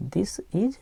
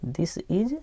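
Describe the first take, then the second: First: Whispered repeat of this is. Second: Said in the usual way. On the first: Shown as a demonstration. Teacher whispering this is to the class. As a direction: breathe the words this is with no voice. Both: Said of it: "teacher repeats the reading".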